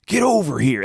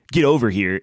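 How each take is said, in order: First: "over" lifted higher with a falling finish; stress on over. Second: Said in the usual way. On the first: Shown as a demonstration. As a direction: punch "over" in "Get over here". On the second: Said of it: "it's not".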